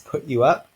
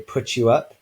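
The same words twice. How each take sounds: First: The t and y stay separate sounds. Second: The t and y merge into ch. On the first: "we have put in the sequence put you up" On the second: "if we say it quickly enough, we might say put you up. the t becomes a ch"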